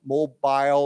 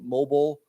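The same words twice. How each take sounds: First: The last syllable has a long 'eye' vowel. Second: The last syllable has a short vowel. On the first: "with a long I" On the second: "or short"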